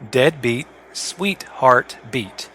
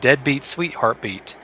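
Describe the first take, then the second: First: The title is said slowly and carefully. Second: The title is said at normal speed.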